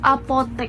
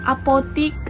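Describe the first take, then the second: First: The last syllable has an 'e' vowel. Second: The last syllable has an 'i' vowel. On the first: The speaker calls it right. "yang benar tuh apotek" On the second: The speaker calls it wrong. "kata yang sering salah diucapkan oleh orang-orang awam"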